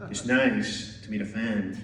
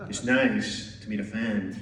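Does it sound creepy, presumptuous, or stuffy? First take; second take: creepy; creepy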